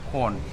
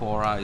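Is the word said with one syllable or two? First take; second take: one; two. First: It has one syllable, sounding like 'corn'. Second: It has two syllables, ending in an 'uh' sound. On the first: The speaker calls it right. "it's actually pronounced as corn" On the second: The speaker calls it wrong. "It's not Quora"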